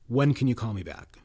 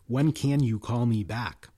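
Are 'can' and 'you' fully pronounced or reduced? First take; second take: reduced; full. First: Can and you are reduced to weak forms. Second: Can and you are pronounced in full. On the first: "normally it's" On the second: "Without weak forms"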